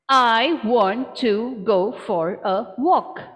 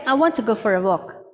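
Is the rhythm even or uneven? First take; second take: even; uneven. First: Every syllable gets equal stress. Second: Only go and walk are stressed; the rest is squished. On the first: "I will stress on each syllable" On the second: "I'm just going to stress on these two"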